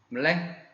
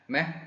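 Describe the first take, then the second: First: The word is said in full, two syllables. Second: The word is said fast, reduced to one syllable. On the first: "물레가 약해서" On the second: "빨리빨리 발음하면"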